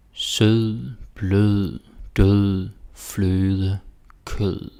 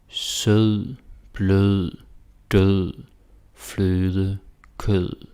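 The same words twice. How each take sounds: The two takes are said the same way.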